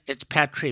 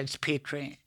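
First: It uses the British pronunciation of the name. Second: It uses the American pronunciation of the name. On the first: "In Britain" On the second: "In America"

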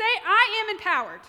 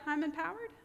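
First: It sounds firm and full of authority. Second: It sounds unsure and questioning. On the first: The speaker is certain of having strength. The speaker calls it right. "Say it with authority and strength" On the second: The speaker doubts having strength. The speaker calls it wrong. "I'd be like"

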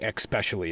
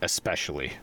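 First: The word has a regional, non-standard pronunciation. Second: The word has the standard pronunciation. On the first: This is how the other person says it. "you say especially" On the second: This is the usual way to say it. "instead of especially"

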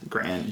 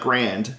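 First: The word ends on n with no d. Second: The word ends with a clear d sound. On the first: The speaker calls it right. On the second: The speaker calls it wrong. "It's not Grand"

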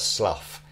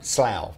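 First: The word ends with an 'uff' sound. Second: The word does not end with an 'uff' sound. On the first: This is how someone reading the spelling would say it. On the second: This is how the town's name is actually said.

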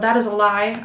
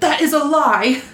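First: It is said in a calm, plain voice. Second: It is said loudly, in a yelling voice.

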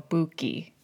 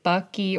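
First: The first vowel sounds like the vowel in book. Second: The first vowel sounds like the vowel in but. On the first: The speaker calls it right. "is it actually ooh, the sound?" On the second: The speaker calls it wrong. "which I took to mean but"

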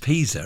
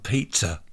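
First: It is said like the town, Pisa. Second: It is said like the food, pizza. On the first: The speaker calls it right. "It's Pisa, isn't it? Not pizza" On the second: The speaker calls it wrong. "I've always called it the Leaning Tower of Pizza"

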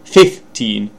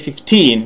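First: The stress is on the first syllable. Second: The stress is on the second syllable. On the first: The speaker calls it wrong. "not 15" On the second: The speaker calls it right. "you need to put the stress on teen syllable"

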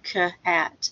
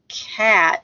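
First: The sounds are split apart with a break. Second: The sounds are blended into one smooth word. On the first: The reader is sounding out each letter. The speaker calls it wrong. "instead of k-at" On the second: The reader has blended the sounds. The speaker calls it right. "connect them together so that you end up with cat"

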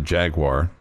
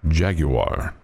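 First: It is said in a plain, everyday accent. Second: It is said in a posh European-sounding accent. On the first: "I always thought that was a Jaguar" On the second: "the very distinguished European voice"

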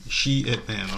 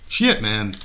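First: The words are said slowly and separately. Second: The words are said fast and run together.

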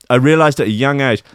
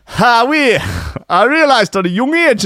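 First: It is said in the speaker's ordinary voice. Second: It is said in an imitated, put-on voice.

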